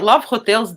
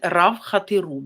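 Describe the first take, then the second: First: It is said with English sounds and an L. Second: It is said with Japanese sounds, no L. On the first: "that's in English" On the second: "in Japanese, they called it Rav Hateru because they cannot pronounce the L"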